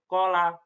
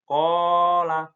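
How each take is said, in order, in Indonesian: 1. Vokal pertama dipotong pendek. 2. Vokal pertama ditahan selama dua ketukan. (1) "Nggak boleh" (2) "alifnya dibaca dua harokat"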